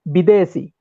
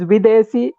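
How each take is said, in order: First: The word begins with a b sound. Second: The word begins with a v sound. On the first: This is the Bengal and Divehi form. "in Assam and Bengal they say it Bidesi" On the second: This is the western Indian form. "in Western Indian languages, it is Videsi"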